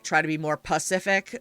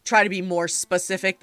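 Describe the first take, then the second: First: "pacific" said in place of "specific", drop the opening S; malapropism. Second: Said in the usual way. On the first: Acted. Player quoting a character who screws up common phrases, malapropism. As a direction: say "pacific" as if it were the right word. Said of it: "they would say, like". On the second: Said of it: "instead of the pas-, you know, saying".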